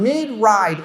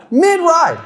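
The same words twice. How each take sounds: First: Said in the usual way. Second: "Mid-ride" said high and loud in disbelief; exasperated repeat. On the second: Real, not acted. Dad repeating what his son did, with high, loud disbelief. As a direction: throw up your hands on "Mid-ride".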